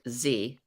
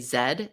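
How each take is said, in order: First: The letter is said as American zee. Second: The letter is said as British zed.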